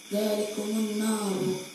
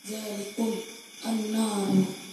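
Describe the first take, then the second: First: The words are joined with a linking vowel. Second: The words are said without a linking vowel.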